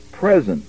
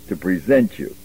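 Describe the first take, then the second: First: "present" said as the noun, stress on the first syllable PRE-sent; wrong stress on present. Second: "present" as the verb, stress on the second syllable pre-SENT; corrected stress on present. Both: Shown as a demonstration. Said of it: "you have to give the accent right".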